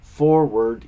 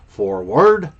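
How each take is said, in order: First: The pitch stays flat and the volume drops. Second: The pitch dips and scoops with clear inflection. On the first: The speaker calls it wrong. "which is monotone" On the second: The speaker calls it right. "a slight scoop there"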